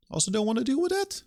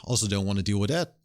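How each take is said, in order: First: Much higher, fast, squeaky whine; a developer fed up with contracts repeats the line in a squeaky high whine. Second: Said in the usual way. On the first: Shown as a demonstration. Third take, squeaky high.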